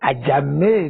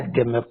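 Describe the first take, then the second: First: The second vowel sounds like 'a'. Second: The second vowel sounds like 'e'. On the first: The speaker calls it right. "Ajamẹ́ ni correct pronunciation" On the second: The speaker calls it wrong. "Ajẹ̀mẹ̀ kọ́"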